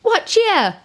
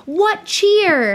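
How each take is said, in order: First: A bad try at a Scottish accent; failed Scottish accent. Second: High, loud yelled greeting; miner yelling. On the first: Shown as a demonstration. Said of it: "No, that's just English". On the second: Retold or imitated. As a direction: call out like a miner who found coal. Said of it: "he yelled".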